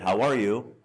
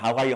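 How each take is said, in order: First: It is said slowly and attentively. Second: It is said quickly and in passing.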